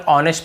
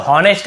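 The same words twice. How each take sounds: First: "ऑनेस्ट" beginning on the vowel; h left silent. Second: "हॉनेस्ट" with the h sounded; common mispronunciation. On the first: Teacher gives the correct reading, h silent. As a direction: say ऑनेस्ट without any h sound. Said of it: "हमें केवल ऑनेस्ट पढ़ना है". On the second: Teacher shows how many people misread it, h pronounced. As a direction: put an audible h at the start of हॉनेस्ट. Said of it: "बहुत से लोग हॉनेस्ट ऐसे बोल देते हैं". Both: Shown as a demonstration.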